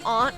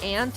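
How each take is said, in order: First: The vowel sounds like the start of 'auntie'. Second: The vowel sounds like the insect 'ant'. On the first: "I do aunt when I'm like saying like auntie" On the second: "ant is how I pronounce it typically"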